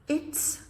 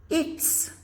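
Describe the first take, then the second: No difference in how they are said.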